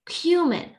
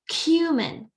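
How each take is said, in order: First: It is said in a British accent. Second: It is said in a British accent.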